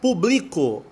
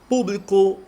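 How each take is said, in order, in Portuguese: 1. A tônica está na sílaba do meio. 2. A tônica está na primeira sílaba. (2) "esdrújulo"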